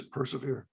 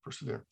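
First: A quiet, softer answer; softly spoken reply from God; soft inner voice. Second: Even softer, trailing away; a fading, near-silent echo of the word. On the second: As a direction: let the repeat die out to almost nothing. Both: Retold or imitated. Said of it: "And it just says".

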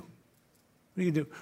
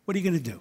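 First: Much softer repeat of the question; soft echo. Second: Said in the usual way. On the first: Acted. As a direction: let the question fade, softer.

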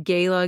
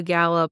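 First: First vowel of "gala" as in day. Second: "gala" said as GAL-uh; first vowel of "gala" as in cat; GAL-a pronunciation. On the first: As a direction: say "gala" with a long AY. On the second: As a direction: say "gala" with a short A. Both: Shown as a demonstration. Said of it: "do you say gala or gala".

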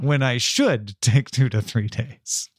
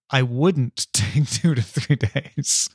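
First: "should" leaned on, slow delivery; slow down and emphasise "should"; stress on SHOULD. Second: "wouldn't" leaned on, slow delivery; slow down and emphasise "wouldn't"; stress on WOULDN'T. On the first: Confessing cookie greed to co-host, stressing "should". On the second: Admitting a worry about the cookie, stressing "wouldn't". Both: Real, not acted.

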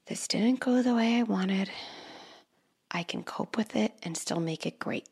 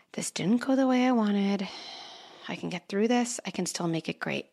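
First: First take of the mantra, half-whispered and soft. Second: Second take, voiced and steady, softening at the end; calm mantra. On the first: Parent modelling a coping mantra, soft half-whisper. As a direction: murmur the calming mantra to yourself. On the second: Parent repeating a coping mantra aloud, calm and steady. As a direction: say the mantra clearly and calmly. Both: Shown as a demonstration. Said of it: "I wanna say that one more time".

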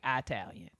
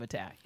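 First: "Italian" opening with a long eye; mispronounced Italian. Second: Said in the usual way. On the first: Shown as a demonstration. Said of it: "saying things like Italian".

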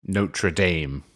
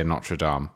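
First: "Notre Dame" as NOH-truh DAYM; American pronunciation. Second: "Notre Dame" as NOT-ruh DAHM; French pronunciation. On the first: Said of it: "well, you would say". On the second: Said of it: "I grew up speaking French". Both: Shown as a demonstration.

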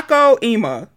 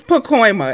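First: Pacoima as PAH-koh-EE-muh; split pronunciation. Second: Pacoima in three beats, puh-KOY-muh; blended pronunciation. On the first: Host correcting herself on the name, Pacoima as PAH-koh-EE-muh. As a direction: break Pacoima into "Paco" plus "Eema". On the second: Host deciding on the name, Pacoima as puh-KOY-muh. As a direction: settle on Pacoima with KOY in the middle. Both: Shown as a demonstration. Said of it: "It has to be Paco".

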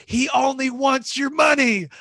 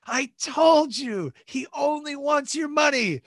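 First: High, slow, drawn-out gloat; slow high-pitched I-told-you-so to the wife; mock told-you-so. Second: High, slow shouted gloat; slow high-pitched shout at the wife; mock told-you-so shout. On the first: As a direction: stretch it out, rubbing it in. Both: Mocking wife about the preacher.

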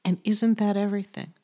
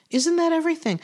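First: Said in the usual way. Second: Lifts the repeated question noticeably higher; emphatic higher repeat. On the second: Shown as a demonstration. To the listeners, repeating her question more emphatically. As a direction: presses her point with the repeat.

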